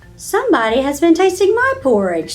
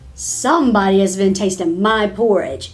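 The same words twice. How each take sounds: First: It is said in a middle-sized voice. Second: It is said in a great big voice. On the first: "in her middle sized voice" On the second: "the great big bear in his great big voice"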